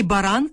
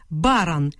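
First: Баран with stress on the last syllable, баРАН; баран stressed at the end, as the common noun; correct noun stress. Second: Баран with stress on the first syllable, БАран; Баран stressed up front, the wrong surname way. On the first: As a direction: say баран as ба-РАН. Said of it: "загальна назва". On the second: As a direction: say Баран as БА-ран, falling. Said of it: "Перетягувати наголос у прізвищі не можна". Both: Shown as a demonstration.

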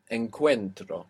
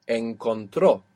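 First: Encuentro with the weight on CUEN; penultimate stress. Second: Encontró with TRÓ punched at the end; final-syllable stress. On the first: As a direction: stress the middle of Encuentro, tro light. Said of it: "are they breaking the accent rule". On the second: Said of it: "we have the accent on the end". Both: Shown as a demonstration.

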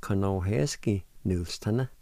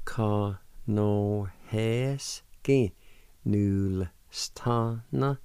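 First: "Conohesky Nulstana" as two flowing words; joined-up pronunciation. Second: "Conohesky Nulstana" stretched syllable by syllable; slow demonstration. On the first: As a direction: run the syllables together naturally. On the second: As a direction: draw out each part very slowly. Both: Shown as a demonstration. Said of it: "and together".

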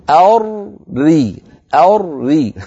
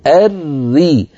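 First: أري split, dark thick r then light ri; slow mistaken أري with mismatched r sounds; first r made heavy. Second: Slow الري with one thin doubled r; both r light. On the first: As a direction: exaggerate a heavy r before the light one in أري. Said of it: "هل الراء الأولى مفخمة". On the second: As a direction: hold a light rolled r into ri in الري. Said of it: "المدغم حكمه حكم المدغم فيه". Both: Shown as a demonstration.

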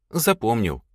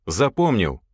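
First: ЗАПОМНИЛ as a statement, falling at the end; confirming answer. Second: ЗАПОМНИЛ as a question, pitch jumping up mid-word; checking question. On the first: Lad answers the boss, ЗАПОМНИЛ said as confirmation. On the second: Boss checks the lad, ЗАПОМНИЛ said as a question. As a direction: ask ЗАПОМНИЛ as a firm check. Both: Acted.

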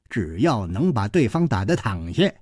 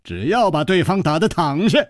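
First: Put-on low-pitched, offhand old man's lecture; smug old fighter. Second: Lifted, amused quoting voice; teasing echo. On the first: Old man explains fighting to his victim, smug and low. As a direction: lay down the rule in a low, smug voice. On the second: Chu quotes the old man's own rule, teasing. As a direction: throw his rule back at him, pitched up. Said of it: "这话是你自己刚才说的". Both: A narrator's reading.

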